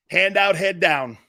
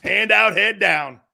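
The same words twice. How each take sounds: First: Slow and deliberate, each word weighed; drawn-out mocking summary; slow emphatic. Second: Loud mocking payoff; loud punchline. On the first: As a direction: lay out Hand out, head down slowly. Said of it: "This is how he went". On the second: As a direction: Hand out punched loud, head down falling. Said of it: "That's how he went back". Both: Shown as a demonstration.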